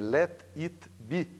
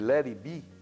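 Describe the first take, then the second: First: Each word is pronounced separately, as it is spelled. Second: The words are linked smoothly, as natural English. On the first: The speaker calls it wrong. "a vontade é dizer let it be, porque é, é como ela está escrita" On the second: The speaker calls it right. "em vez de eu dizer"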